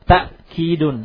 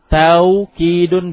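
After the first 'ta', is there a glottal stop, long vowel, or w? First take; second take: glottal stop; w. First: A glottal stop follows the first vowel. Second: A w sound follows the first vowel. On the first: "Ta'kidun bilhamzah, dengan hamzah" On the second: "tawkidun bilwawi"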